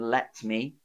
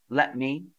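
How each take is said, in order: First: The T before 'me' is clearly pronounced. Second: The T before 'me' is dropped. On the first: "rather than" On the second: "So I sort of drop it just before the me"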